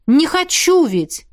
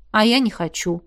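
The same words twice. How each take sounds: First: "хочу" drawn out and pitched high; slow, high emphasis on "хочу"; insist, stretching "хочу" in frustration; exasperated insistence. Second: Said in the usual way. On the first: A narrator's reading. Exasperated repeat of her admission.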